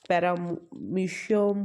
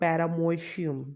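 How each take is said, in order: First: The vowel after 'para' is an 'ee' sound. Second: The vowel after 'para' is an 'oh' sound. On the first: This is the usual way the name is said. "तो पैरामीशियम होता है" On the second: It follows the spelling so the letter o is not forgotten. "इसलिए मैं पैरामोशियम बोलती हूँ क्योंकि ओ लिखना भूल जाते हो"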